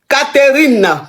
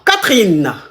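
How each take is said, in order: First: The middle E is sounded, giving three syllables. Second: The middle E is dropped, giving two syllables. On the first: It is the full respectful form for the mother. "qui va couper même une lettre dans le prénom?" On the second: It is the short everyday form for a namesake. "Le E ne se prononce pas"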